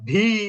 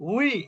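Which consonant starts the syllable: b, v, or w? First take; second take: v; w. First: The syllable begins with a v sound. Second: The syllable begins with a rounded w sound. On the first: The speaker calls it wrong. "ওয়াওজের ভি, তাহলে কিন্তু ... মানুষ ধরবে" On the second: The speaker calls it right. "উচ্চারণটা যদি আপনি হার্ডলি করেন উই, ... তাহলে কিন্তু হয়ে গেল"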